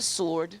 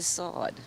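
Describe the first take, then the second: First: It is said in a non-Trinidadian accent. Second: It is said in a Trinidadian accent. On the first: The speaker calls it wrong. "in Trinidad, we don't say sword" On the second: The speaker calls it right. "we say sword"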